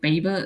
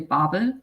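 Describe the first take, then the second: First: The name is pronounced the English way. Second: The name is pronounced the German way. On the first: "when I try to pronounce English names of titles, I'm like I try to pronounce it English" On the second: "if I would say German, I would say Babel"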